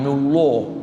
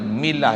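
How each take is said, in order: First: The L sound is heavy and thick. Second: The L sound is light and thin. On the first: The speaker calls it wrong. "jangan mullah" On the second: The speaker calls it right. "tarkikkan lam pada milah"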